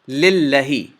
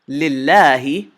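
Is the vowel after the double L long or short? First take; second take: short; long. First: The vowel after the double L is short. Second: The vowel after the double L is held long. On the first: The speaker calls it wrong. "if this Alif Saghira wasn't there, you would pronounce this Lillahi. But that's incorrect" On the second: The speaker calls it right. "you're supposed to extend the, the second lam one more count. So to two counts"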